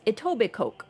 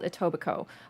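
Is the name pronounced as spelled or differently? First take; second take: as spelled; differently. First: The name is pronounced the way it is spelled. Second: The name is not pronounced as it is spelled. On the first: This is how outsiders say it. The speaker calls it wrong. "outsiders are always saying it as Etobicoke" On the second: This is how people from there say it. The speaker calls it right. "It's called Etobicoke"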